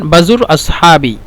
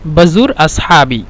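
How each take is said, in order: First: Said in the usual way. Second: বাজুর আসহাবি said slowly and clearly; slow repeat. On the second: Shown as a demonstration. Teacher modelling the phrase for viewers, slowly. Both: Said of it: "এখানে বলতে পারেন".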